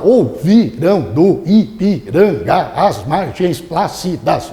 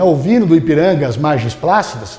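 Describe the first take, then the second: First: Every syllable is pronounced fully and separately. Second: Neighbouring syllables are run together smoothly. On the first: The speaker calls it wrong. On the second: The speaker calls it right.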